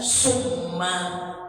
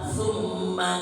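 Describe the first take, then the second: First: The word begins with an s sound. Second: The word begins with a th sound. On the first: The speaker calls it wrong. "dibacanya summa. Makhrajnya tidak benar" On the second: The speaker calls it right. "Sudah jelas hurufnya summa"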